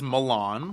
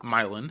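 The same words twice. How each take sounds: First: It is said like the Italian city. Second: It is said the local Indiana way. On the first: "spelled as Milan, like Italy" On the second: "Milan is how we pronounce it"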